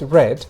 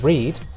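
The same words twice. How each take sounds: First: The vowel is short, like 'red'. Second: The vowel is long, like 'reed'. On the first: It is the past form. "el pasado simple es read" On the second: It is the present or infinitive form. "en el infinitivo o el presente"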